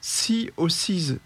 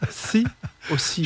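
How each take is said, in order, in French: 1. Le nom est prononcé avec un accent léger. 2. Le nom est prononcé avec un accent fort.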